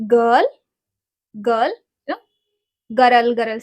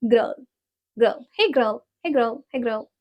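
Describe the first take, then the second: First: Put-on "girl" said as "gul" or "ga-rul"; non-American girl. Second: Put-on "girl" squeezed into one short "grrl"; American girl with growled R. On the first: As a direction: say "girl" without the American growled R. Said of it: "but that's not the right". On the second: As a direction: growl the R in "girl", almost "grul". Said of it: "We say in American". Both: Shown as a demonstration.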